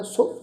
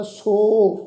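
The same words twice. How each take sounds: First: "ਸੋ" said short and light; touch the vowel of "ਸੋ" briefly. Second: "ਸੋ" held on a long o; long vowel. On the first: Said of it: "ਉਸ ਦਾ ਹਲਕਾ ਜਿਹਾ ਉਚਾਰਨ ਕਰਨਾ". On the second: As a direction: draw "ਸੋ" out at length. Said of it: "ਲੰਮੀ ਹੇਕ ਚੋਂ ਵੀ ਉਚਾਰਨ ਕਰ ਸਕਦੇ". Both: Shown as a demonstration.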